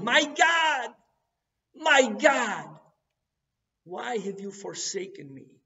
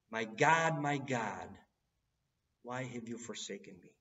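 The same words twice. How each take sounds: First: High, loud cry of anguish; anguished yell. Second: Said in the usual way. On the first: Retold or imitated. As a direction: cry it out to heaven, much higher and louder. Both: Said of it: "He's yelling".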